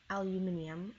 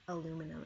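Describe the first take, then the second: First: The word is said as aluminium. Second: The word is said as aluminum. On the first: "but I like aluminium better" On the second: "as I actually say it"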